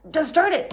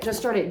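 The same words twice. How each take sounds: First: Pushy inner voice. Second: Said in the usual way. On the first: Retold or imitated. Arguing with her own brain.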